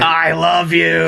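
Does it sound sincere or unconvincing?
sincere. It sounds warm and sincere.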